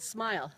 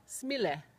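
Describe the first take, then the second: First: Said in the usual way. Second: "smile" as smee-leh, every letter sounded; Finnish sounding-out. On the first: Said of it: "like just the word smile". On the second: Shown as a demonstration. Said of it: "couldn't just be easily sounded out".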